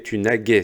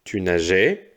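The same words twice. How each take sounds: First: Naguais said with a hard G, not a J sound; wrong form demo. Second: Said in the usual way. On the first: Shown as a demonstration. Teacher warning pupils about the forgotten E, naguais with a hard G. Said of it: "ça fait tu naguais". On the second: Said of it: "si tu oublies le E".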